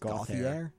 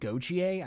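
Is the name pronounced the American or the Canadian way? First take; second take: American; Canadian. First: The name is pronounced the American way. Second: The name is pronounced the Canadian way. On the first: The speaker was born in the United States. "if you're born in the States, it's Gauthier" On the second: The speaker is from Canada. "the Canadians say it Gauthier"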